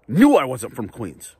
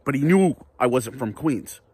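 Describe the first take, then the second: First: "Knew" hit hard and louder, whole line slowed down; stress on knew. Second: Said in the usual way. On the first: Real, not acted. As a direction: lean on "Knew" and drag the line out. Repeats line for emphasis.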